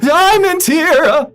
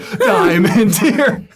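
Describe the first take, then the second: First: It is said in a fearful way. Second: It is said without any fear.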